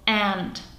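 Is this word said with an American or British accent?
American. It is said with an American accent, like 'and'. "V americké angličtině teta nebo mravenec obojí zní jako and"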